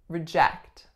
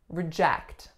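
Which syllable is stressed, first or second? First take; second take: second; second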